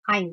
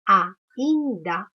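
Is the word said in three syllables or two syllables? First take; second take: two syllables; three syllables. First: The word is run together into two syllables. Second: The word is split into three separate syllables. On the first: The speaker calls it wrong. "Eu não falo ainda" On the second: The speaker calls it right. "eu falo ainda. Ainda. Três vezes"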